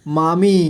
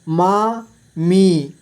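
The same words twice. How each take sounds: First: Said in the usual way. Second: मामी split slowly into मा, मी; syllable by syllable. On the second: Shown as a demonstration. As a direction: stretch and separate मा and मी in मामी. (मामी को तोड़कर धीरे: मा, मी) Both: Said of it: "इस तरह से आपको".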